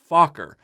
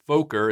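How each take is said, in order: First: The name sounds like the English curse word. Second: The name is changed to avoid a curse word. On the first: This is the original Dutch name. The speaker calls it right. "the correct pronunciation is Fokker" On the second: This is how the series says the name. The speaker calls it wrong. "they pronounce it Fokker in the series"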